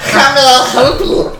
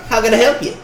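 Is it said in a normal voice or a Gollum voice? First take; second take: Gollum; normal. First: It is said in a Gollum voice. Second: It is said in his normal voice.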